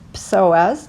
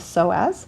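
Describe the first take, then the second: First: The word starts with a sounded 'ps' cluster. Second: The word starts with a plain 's' sound. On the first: This is how other countries and languages say it. "in other countries and other languages, they pronounce so as psoas. They pronounce the S" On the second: This is how it is usually said in the US. "In the U S, we tend to just call it the psoas"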